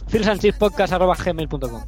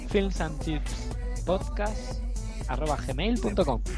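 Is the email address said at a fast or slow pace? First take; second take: fast; slow. First: It is said quickly, with sounds swallowed. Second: It is said slowly, word by word. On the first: "No lo he dicho bien" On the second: "lo digo lento"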